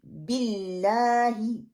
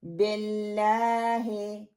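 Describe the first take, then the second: First: बिल्लाही with the "ll" clearly doubled; strong shadda. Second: बिल्लाही with the double l barely held and a loose "be"; weak shadda. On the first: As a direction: press and hold the double "l" in बिल्लाही. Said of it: "no, बिल". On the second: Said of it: "शद मजबूत ना पढ़ना". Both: Shown as a demonstration.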